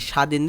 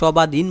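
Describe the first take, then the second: First: No b sound follows the first consonant. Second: A b sound follows the first consonant. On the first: The speaker calls it right. "ব এর উচ্চারণে স্বাধীন" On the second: The speaker calls it wrong. "সবাদিন বলি না"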